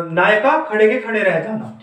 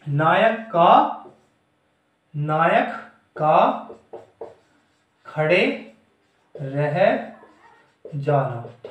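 First: Said in the usual way. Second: Word by word, long pauses between; slow dictation. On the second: Shown as a demonstration. Teacher dictating a definition to students, slow dictation. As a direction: dictate it slowly, each word set apart.

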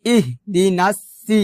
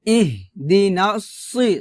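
First: ইহদিনাস সি with a light s; wrong thin sin. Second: ইহদিনাস সি with a thick s; slow heavy-s model of সি; heavy sad sound. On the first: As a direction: keep the s of সি thin and plain. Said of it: "সি বলা যাবে না". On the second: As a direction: make the s of সি full and emphatic. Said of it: "সদ মোটা করে বলতে হবে". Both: Shown as a demonstration.

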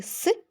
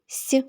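First: Hard, non-palatalised «с», isolated; hard S sound. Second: Soft, palatalised «с», isolated; soft S sound. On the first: Teacher giving the starting sounds for the game, hard «с». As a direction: give «с» without any softening. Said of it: "приголосний твердий". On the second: Teacher giving the starting sounds for the game, soft «с». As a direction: give «с» softened, as before «і». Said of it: "приголосний м'який". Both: Shown as a demonstration.

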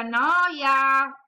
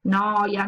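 First: The last noia burst out higher and louder; fed-up child shouting noia. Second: Said in the usual way. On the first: Acted. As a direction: explode on the final noia like a bored child. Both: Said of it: "sbottò".

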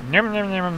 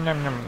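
First: "nom, nom, nom" chomped out in a put-on cartoon eating voice; mock munching sound. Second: "nom, nom, nom" repeated softer and lower, trailing off; quieter mock munching. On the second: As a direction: let the chomping fade out under your breath. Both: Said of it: "that lawyer never makes that sound".

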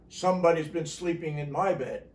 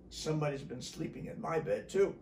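First: Loud, full storybook roar; Papa Bear roar. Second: Milder, unraised bear voice; Mama Bear. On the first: Papa Bear sees his bed, loud roar. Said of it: "he roared". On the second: Mama Bear finds her bed used, understated voice. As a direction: echo the complaint without roaring. Mama Bear's turn, quieter. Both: A narrator's reading.

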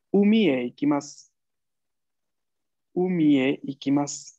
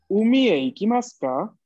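First: "Umi e ikimasu" said level, no rise or fall; neutral tune. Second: "Umi e ikimasu ka?" rising and louder at "ka"; rising question. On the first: Teacher models "Umi e ikimasu" with a neutral tune. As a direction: keep "Umi e ikimasu" even and neutral to the end. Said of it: "tiene una entonación bastante neutral". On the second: Teacher models the question "Umi e ikimasu ka?" with a rise. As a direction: lift "Umi e ikimasu ka?" up at the end. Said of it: "con tono ascendiente". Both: Shown as a demonstration.

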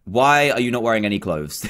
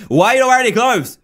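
First: Said in the usual way. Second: Fast, high, incredulous exclamation; incredulous outburst. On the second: Real, not acted. Player challenges a naked figure, incredulous. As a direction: blurt it out in disbelief. Repeats the question, now exclaiming.

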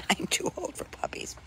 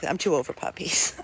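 First: Whispered through a laugh, much softer; a tired aside, laughing under breath. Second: Said in the usual way. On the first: Real, not acted.

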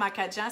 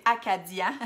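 First: "acadien" said as "acadjin"; Acadian dialect pronunciation. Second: "acadien" with a clear "di", as "a-ca-dyin"; proper form of "acadien", no "dj" sound; standard pronunciation. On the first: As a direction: soften the "di" in "acadien" to a "dj" sound. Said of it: "on détruit les mots". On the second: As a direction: say "acadien" carefully in standard French. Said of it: "le bon terme". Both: Shown as a demonstration.

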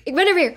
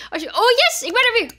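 First: Said in the usual way. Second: High, bright cheer of relief; joyful cheer. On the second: Real, not acted. Revived player cheers to her friends, high joy. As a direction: celebrate coming back to life.

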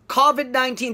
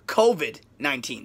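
First: Covid with a plain flat o, as Japanese say it; Japanese-style covid. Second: Covid with a long o glide, ko-uh-vid, softer and lower; English covid. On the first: Teacher imitating the learner's flat covid. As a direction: say covid without the glide. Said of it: "covid になっちゃってる". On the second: Teacher modelling the right covid quietly. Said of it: "ではなく". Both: Shown as a demonstration.

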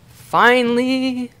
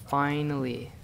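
First: Drawn-out, higher, louder "Finally!"; relieved triumphant cry. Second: Said in the usual way. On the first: Real, not acted. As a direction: stretch "Finally!" out in sheer relief.

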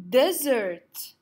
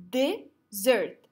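First: Said in the usual way. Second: "Desert" broken into de and sert; clapping way. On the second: Shown as a demonstration. Teacher counting two syllables for the class, clapping way. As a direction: put a clear gap between the two syllables of "Desert". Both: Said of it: "use the clapping way".

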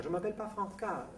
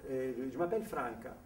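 First: "Franca" mimicked high with the accent on final "ca"; wrong French stress. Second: "Franca" stressed on the first syllable "Fran"; Italian stress. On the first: Italian mimics the nurse's mistake, final stress on "Franca". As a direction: throw the stress onto the end of "Franca". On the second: Retold or imitated. Italian corrects the French nurse, first-syllable stress on "Franca". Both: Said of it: "elle lui a dit".

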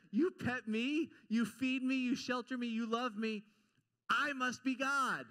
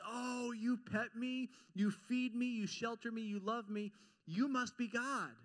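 First: Louder, with a laugh, self-satisfied; a cat that knows it's the boss; hammed-up entitled cat, louder and pleased with itself; smug cat. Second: A dog humbly amazed at its master; grateful dog. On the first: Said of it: "A cat says". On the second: Retold or imitated. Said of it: "a dog looks at you and says".

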